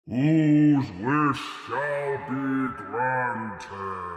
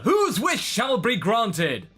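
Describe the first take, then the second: First: It is said in a put-on Shenron voice. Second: It is said in his ordinary voice.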